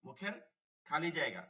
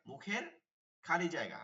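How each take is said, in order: Both takes have the same delivery.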